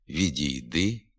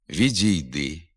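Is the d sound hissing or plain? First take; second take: plain; hissing. First: The soft d is plain with no hiss. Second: The soft d has a hissing dz-like sound. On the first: The speaker calls it right. "треба вимовляти" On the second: The speaker calls it wrong. "вимовляються зі свистячим відзвуком"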